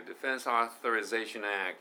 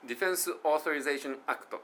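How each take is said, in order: First: "Defense Authorization Act" flowing smoothly as one unit; linked pronunciation. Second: "Defense Authorization Act" broken up word by word; choppy pronunciation. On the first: Teacher giving learners the right linked version. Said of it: "ですよ". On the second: Teacher showing learners the wrong choppy way. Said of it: "じゃなくて". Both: Shown as a demonstration.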